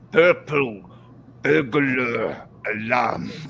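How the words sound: It is said in an imitated Scottish accent. "the Scottish, because they go"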